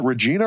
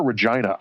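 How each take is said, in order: First: Regina said "reh-JEE-nuh"; Regina with long ee. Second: Regina said "reh-JY-nuh"; Regina with long i. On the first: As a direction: say Regina with an "ee" in the stressed middle. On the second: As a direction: say Regina so the middle rhymes with "eye". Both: Shown as a demonstration. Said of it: "rhymes with vagina".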